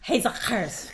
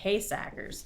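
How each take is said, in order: First: The surname is said with its Dutch pronunciation. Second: The surname is said the way the family says it. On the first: This is how the name is said in Dutch. "the Dutch pronunciation is Hesackers" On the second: People who know the family well say the name this way. "they say Haysackers"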